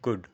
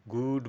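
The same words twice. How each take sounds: First: গুড with a short, quick vowel; short GOOD. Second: গুড with a long, stretched oo; drawn-out GOOD. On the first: Teacher correcting the long vowel, short গুড. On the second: Teacher showing what not to say, overlong গুড. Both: Shown as a demonstration. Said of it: "গুড বলবো না".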